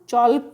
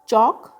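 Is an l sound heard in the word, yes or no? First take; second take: yes; no. First: The word is said with an l sound. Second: The word is said with no l sound. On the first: The speaker calls it wrong. "हम चौल्क नहीं बोलते हैं" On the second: The speaker calls it right. "चौक में एल silent है"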